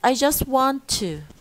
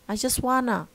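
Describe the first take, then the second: First: The full form with a clear t is said. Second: The reduced form without the t is said.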